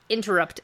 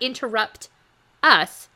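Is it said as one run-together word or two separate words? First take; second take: one word; two words. First: It is said as one run-together word. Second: It is said as two separate words. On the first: The speaker calls it right. "It's all one word" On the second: The speaker calls it wrong. "Not interrupt us"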